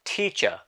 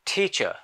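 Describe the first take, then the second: No difference in how they are said.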